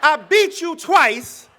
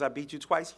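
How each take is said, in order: First: It is said in an angry, aggressive tone. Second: It is said in a calm, restrained tone. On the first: What he really wanted to say. "He needed an anger translator" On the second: A composed public retort. "he wanted to say it differently than that"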